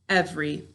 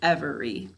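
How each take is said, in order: First: The middle vowel is dropped, giving two syllables. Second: Every vowel is sounded, giving three syllables. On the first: This is how it is usually said in speech. "every is often pronounced every" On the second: This is said to help with spelling. "to spell it, we say every"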